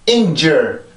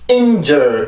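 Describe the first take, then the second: First: The pitch lifts up once within the word. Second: The pitch drops off sharply after the first syllable. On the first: The speaker calls it right. "한 번 소리가 올라와야 돼요" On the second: The speaker calls it wrong. "이렇게 뚝 떨어뜨리게 되는데"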